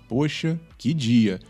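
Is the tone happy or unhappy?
unhappy. It is said in an unhappy tone.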